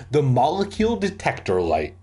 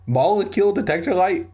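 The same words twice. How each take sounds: First: Said in the usual way. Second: High, quick incredulous repeat. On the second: Real, not acted. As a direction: question the silly term in a raised pitch. Reader mocks the book's gadget.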